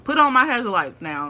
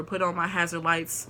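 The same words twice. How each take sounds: First: Higher and louder, stressing on; insistently: put ON my hazard lights; emphatic repeat. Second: Said in the usual way. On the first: Real, not acted.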